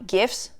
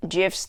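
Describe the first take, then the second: First: "gifs" with a hard g as in give, questioning. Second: "gifs" said with a j sound, like "jifs"; soft-g "gifs". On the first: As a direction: test out "gifs" with a hard g, rising. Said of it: "what do I usually say?". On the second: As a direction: start "gifs" with a soft g, as in gem. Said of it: "Did I just say gifs?". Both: Real, not acted.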